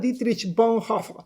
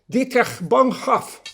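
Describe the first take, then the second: First: The name is said loosely and quickly. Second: The name is said slowly and carefully. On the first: The speaker calls it wrong. "perdón" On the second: The speaker calls it right. "hagámoslo bien pronunciado"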